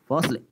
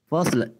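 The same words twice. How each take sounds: No difference in how they are said.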